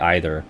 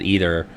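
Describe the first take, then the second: First: The word gets a fancier, more dignified pronunciation. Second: The word gets its everyday casual pronunciation. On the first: The speaker wants to sound more dignified. The speaker calls it right. "it'll sound fancier if I say either. It just sounds more dignified" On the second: This is how the speaker talks day to day. The speaker calls it wrong. "that's totally not how I would pronounce the word it, speaking day to day"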